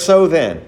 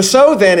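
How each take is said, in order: First: Said in the usual way. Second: "so then" higher and louder, weight on "so"; "so then" punched high and loud; stress on so then. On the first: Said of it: "He uses the phrase". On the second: Shown as a demonstration. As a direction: hit "so then" hard to point back to earlier verses. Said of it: "is there because it is making reference".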